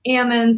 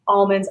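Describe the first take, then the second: First: It is said without an L sound. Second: It is said with an L sound. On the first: The speaker is from the northern area. "people north of it say almonds ... up north ... don't have the L" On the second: The speaker is from the southern area. "people south of it say almonds"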